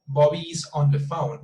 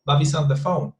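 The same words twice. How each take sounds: First: BOBBY IS ON with each word separate; careful word-by-word BOBBY IS ON THE PHONE. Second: BOBBY'S ON run together as one word; contracted, joined-up BOBBY'S ON; connected speech. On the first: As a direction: pronounce IS and ON fully, unlinked. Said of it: "We don't say that". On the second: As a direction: link BOBBY'S into ON THE PHONE. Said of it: "So we connect the sounds". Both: Shown as a demonstration.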